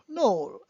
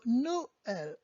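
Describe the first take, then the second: First: The o and e blend into one syllable. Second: The o and e are said as two syllables. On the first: The speaker calls it wrong. "I've heard people in English call it joyous Noel" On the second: The speaker calls it right. "you have to separate it and pronounce it as well"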